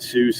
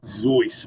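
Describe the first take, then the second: First: The name begins with a hissing s sound. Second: The name begins with a buzzing z sound. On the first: This is how most people say the name. "people have always pronounced it Seuss" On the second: This is how the man himself said his name. "his name is actually pronounced Zeus"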